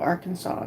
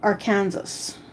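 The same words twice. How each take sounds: First: It is pronounced with a final 'saw' sound. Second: It is pronounced as spelled, ending in 'sas'. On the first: The speaker calls it right. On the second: The speaker calls it wrong.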